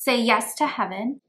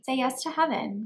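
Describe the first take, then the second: First: It is said sternly and intensely. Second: It is said lightly and airily. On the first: The listener is ordered to do it. "as a command. That's a little bit more stern, a little bit more intense and directed" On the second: The listener is gently invited to do it. "as a suggestion, which is a little bit lighter, a little bit more airy"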